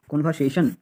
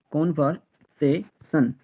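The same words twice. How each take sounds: First: Said in the usual way. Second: conversation slowly split into kon-var-se-shon; syllable by syllable. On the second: Shown as a demonstration. Teacher drilling learners on the word, conversation said slowly in pieces. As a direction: break conversation into separate, slow syllables.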